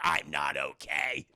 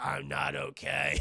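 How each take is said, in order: First: Slow, low, worn-out croak; a hint of a chain-smoking old man; raspy old Logan. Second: Slow, low, worn-out growl; lightly voiced chain-smoker rasp; raspy old Logan. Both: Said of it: "sounds like an eighty-year-old chain-smoking bag lady".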